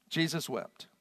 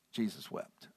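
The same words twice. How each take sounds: First: Said in the usual way. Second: Soft, low, slow reading of Jesus wept; hushed reading. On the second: Shown as a demonstration. Preacher reading the shortest verse, hushed and low. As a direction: let it fall quietly. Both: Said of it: "the shortest verse in the Bible".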